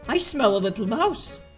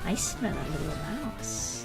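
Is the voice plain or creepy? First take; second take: plain; creepy. First: It is said in a plain voice. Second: It is said in a creepy voice.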